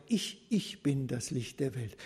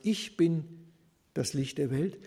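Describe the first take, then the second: First: "Ich, ich" doubled, weight on the first "Ich"; stress on Ich. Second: Said in the usual way. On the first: Shown as a demonstration. Preacher showing Jesus' emphasis to the congregation, "Ich" stressed. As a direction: lean hard on "Ich" and repeat it. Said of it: "Also eine besondere Betonung des Ich". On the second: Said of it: "wenn er wörtlich übersetzt sagt".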